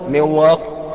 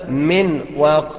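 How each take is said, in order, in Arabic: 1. تُدغم النون في الواو دون غنة. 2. تُنطق النون بوضوح قبل الواو. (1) "انك تضغمها من غير غنه منواق خطأ" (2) "انك تظهرها من واق خطأ"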